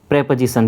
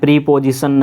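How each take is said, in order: First: The first vowel sounds like 'eh' in 'pet'. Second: The first vowel sounds like 'ee' in 'see'. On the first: The speaker calls it right. "क्या बोल रहा हूँ मैं, प्रेपोजिशन" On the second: The speaker calls it wrong. "प्रीपोजिशन नहीं बोलना है इसको"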